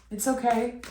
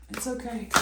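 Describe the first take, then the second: First: Gentle it's okay, steady level; first comforting it's okay at normal volume; reassuring. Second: Softer, near-hushed it's okay; repeated it's okay, much quieter; soft reassurance. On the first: Reassuring viewer about past hurt. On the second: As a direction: let it fall away tenderly. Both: Real, not acted.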